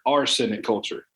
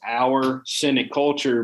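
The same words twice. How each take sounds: First: 'Our cynic' runs together like 'arsenic'. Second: 'Our cynic' is said as two separate words. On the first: "the way we say it is ... our accent here" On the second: "the name of the show is"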